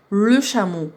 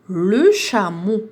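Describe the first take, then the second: First: Said in the usual way. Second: "Le chameau" stretched out very slowly; slow syllable blending. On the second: Shown as a demonstration. Teacher modelling the blended word for pupils, very slow. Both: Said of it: "ربطت بيناتهم".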